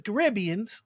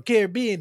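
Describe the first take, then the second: First: Caribbeans stressed on the second syllable, ca-RIB-be-ans; regional pronunciation. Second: Caribbean stressed on the third syllable, ca-rib-BE-an; regional pronunciation. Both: Shown as a demonstration. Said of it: "depending on where you're from".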